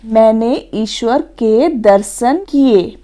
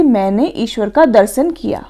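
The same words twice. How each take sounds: First: Slow, measured model sentence; example sentence. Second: Said in the usual way. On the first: Shown as a demonstration. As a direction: read it out slowly as a correct example. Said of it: "देख लेते हैं इसके उदाहरण". (उदाहरण वाक्य धीरे-धीरे पढ़ते हुए) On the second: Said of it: "कभी भी ये नहीं कहते हैं".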